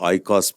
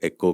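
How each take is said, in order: First: The word begins with an 'ai' sound. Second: The word begins with an 'e' sound. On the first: The speaker calls it wrong. "गलती से हमारे अक्सर लोग उसको आईकॉस प्रोनाउंस करते हैं" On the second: The speaker calls it right. "Greek में जो है उसको एको कहते हैं"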